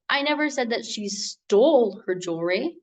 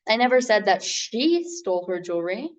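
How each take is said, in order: First: The word "stole" carries the stress. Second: The word "she" carries the stress. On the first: She may only be borrowing it. "meaning that she didn't steal it, maybe she's just borrowing it" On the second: Someone else was the thief. "meaning that someone else was the thief"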